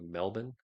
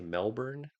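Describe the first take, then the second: First: It is said the way Australians say it. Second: It is said in the speaker's own accent.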